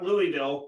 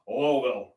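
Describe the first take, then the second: First: The name begins with a 'loo-ee' sound. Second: The name begins with a short 'luh-wull' sound. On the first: It is said the way outsiders say it. The speaker calls it wrong. "not Louisville" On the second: It is said the way locals say it. The speaker calls it right. "I pronounce it like the Kentuckians"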